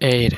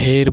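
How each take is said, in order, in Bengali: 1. এটি একটি স্বরধ্বনি দিয়ে শুরু হয়। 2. এটি একটি h ধ্বনি দিয়ে শুরু হয়। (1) "অ্যান এর" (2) "এখানে আমরা কিন্তু হের বলি না"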